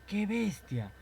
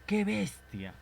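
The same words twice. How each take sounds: First: High exclaimed cry; classmate's exclamation. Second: High exclaimed Qué bestia. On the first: Classmate calls out Qué bestia, high and exclaimed. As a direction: blurt it out like a startled classmate. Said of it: "tu compañero dice". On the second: Teacher acting out an exclamation, raised high. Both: Shown as a demonstration.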